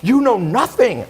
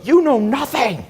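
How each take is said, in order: First: High, slow, scornful mimic; mocking snooty friend. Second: High, slow, sneering mimic of the Harvard friend; mocking snooty friend. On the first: Quoting the friend's put-down again, high mock scorn. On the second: Retelling the friend's dinner outburst, high mocking sneer. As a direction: imitate her looking down her nose, high and drawn out. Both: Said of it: "She flipped out at a dinner".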